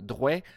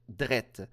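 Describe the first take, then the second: First: The vowel is said like 'weh'. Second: The vowel is said like 'eh'. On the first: "au lieu de dire drouet" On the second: "on doit dire drette"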